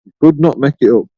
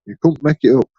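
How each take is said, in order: First: "could not" split apart, not pushed hard; stress on not. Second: Said in the usual way. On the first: Shown as a demonstration. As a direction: spell out "could not make it up" with weight on not.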